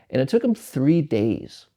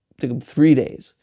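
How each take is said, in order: First: Said in the usual way. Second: "It took 'em three days" again, louder, pressing on "three"; emphatic repeat. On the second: Real, not acted. Telling listeners about the long labour, stressing "three" louder.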